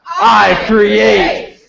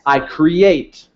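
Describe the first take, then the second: First: Shouted from a mountaintop, louder; super powerful. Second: Said in the usual way. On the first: Shown as a demonstration. Leading the crowd, shouting it powerful from a mountaintop. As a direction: proclaim it like you own the mountain. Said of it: "super powerful, standing on the top of a mountain". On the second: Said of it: "now say it like you're, like, super powerful".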